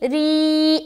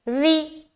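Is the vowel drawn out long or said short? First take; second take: long; short. First: The vowel is drawn out long. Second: The vowel is cut off short. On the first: "री ऐसा किया था" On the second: "री जल्दी छोड़ रहे"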